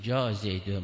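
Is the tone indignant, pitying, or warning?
warning. It sounds cautionary, like a warning about him. Be careful, he is a spy. "مواظب باش این جاسوسه"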